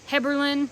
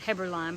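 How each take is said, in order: First: The last syllable has a short 'lin' sound. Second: The last syllable has a long 'line' sound. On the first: The speaker calls it right. "Heberlin is probably how you pronounce it" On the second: The speaker calls it wrong. "I've always said Heberlein"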